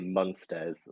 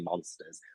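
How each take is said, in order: First: The first vowel sounds like a u. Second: The first vowel sounds like an o. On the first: This is the speaker's natural accent. "I usually say Munsters, where make it like a U, and that's just like my accent" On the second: The speaker is avoiding their natural accent. "try and not do my accent, and I say Monsters"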